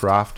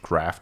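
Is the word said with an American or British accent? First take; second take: British; American. First: The word is said with a British accent. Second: The word is said with an American accent. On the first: "Craft ist British English" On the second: "Craft ist American"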